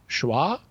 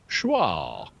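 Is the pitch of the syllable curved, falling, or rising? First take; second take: rising; curved. First: The pitch rises across the syllable. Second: The pitch changes direction within the syllable. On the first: "if you raise the pitch of your voice as you say a syllable" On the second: "if you use a circumflex pitch like schwa"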